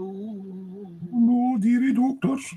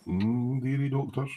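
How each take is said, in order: First: Very high, slow, exaggerated dearie doctors; hammed-up Colin. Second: Soft, high drowsy mumble of dearie doctors; imitating Colin. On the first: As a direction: stretch dearie out in a silly squeaky voice. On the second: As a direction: mumble dearie like a sleepy friend. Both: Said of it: "Colin's like".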